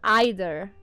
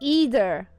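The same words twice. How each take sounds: First: It is said with a British first vowel. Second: It is said with a non-British first vowel. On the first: The speaker calls it wrong. "not either" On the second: The speaker calls it right. "And it's either"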